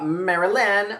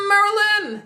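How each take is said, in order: First: Said in the usual way. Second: High, loud, stretched-out call across the room; calling out a name. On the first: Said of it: "Now, how do I say it?". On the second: Shown as a demonstration. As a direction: yell her name like hailing a friend. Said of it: "That's how I say it".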